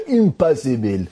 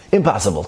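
First: High, hammed-up Israeli accent. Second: Said in the usual way. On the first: Storyteller mimicking Israelis' verdict of impossible, high Israeli accent. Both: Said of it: "they say in Israel".

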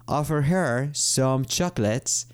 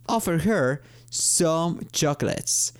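First: Said in the usual way. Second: Slow, clear example sentence; slow model sentence. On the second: Shown as a demonstration. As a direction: read it slowly for learners. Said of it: "Otro ejemplo es". (ejemplo leído despacio)

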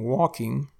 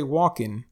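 First: Said in the usual way. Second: "walking" said as walkin', ending in n; dropped G. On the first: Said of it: "instead of saying walking". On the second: Shown as a demonstration. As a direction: end "walking" on n, not ng. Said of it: "we drop the G at the end of words".

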